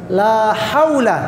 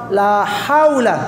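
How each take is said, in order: No difference in how they are said.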